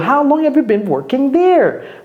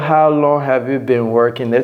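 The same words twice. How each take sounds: First: The question is said with lively emotion. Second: The question is said flatly without emotion. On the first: The speaker calls it right. "Prenez la peine de, d'avoir de l'émotion dans, dans votre voix" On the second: The speaker calls it wrong. "Ne dites pas, ... Ça fait bizarre"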